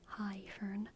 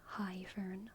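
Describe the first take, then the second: No difference in how they are said.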